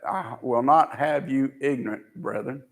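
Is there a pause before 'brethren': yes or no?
yes. There is a pause before 'brethren'.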